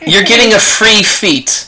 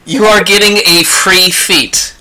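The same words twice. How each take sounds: First: Higher, drawn-out announcement; emphatic award. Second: "You are" said as two full words, stressed on "are"; emphatic repeat. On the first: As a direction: slowly proclaim the prize, pitched up. Game master awards feat after performance. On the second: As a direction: slowly hammer out "You are getting a free feat", stress on "are". Repeats the award, spelling it out. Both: Real, not acted.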